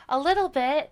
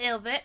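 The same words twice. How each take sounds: First: Said in the usual way. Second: Put-on British accent slip. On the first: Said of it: "Oh, that wrong, sorry". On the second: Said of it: "my character last night was British".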